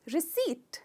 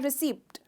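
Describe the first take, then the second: First: No p sound is said before the final t. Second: A p sound is said before the final t. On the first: The speaker calls it right. "इसमें पी silent है" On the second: The speaker calls it wrong. "प का भी sound ले लेते हैं जो गलत है"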